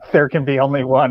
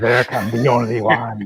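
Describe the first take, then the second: First: It is said in his ordinary accent. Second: It is said in Lambert's French-Scottish accent.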